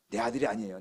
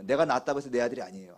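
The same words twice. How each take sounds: First: 아들이 leaned on, falling at the end; stress on 아들이. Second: 내가 set apart and leaned on first; stress on 내가. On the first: Pastor telling the congregation, stress on 아들이. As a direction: lean on 아들이, let the rest fall. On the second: Pastor correcting himself to the congregation, stress on 내가. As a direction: open by leaning on 내가, then let it fall. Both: Shown as a demonstration.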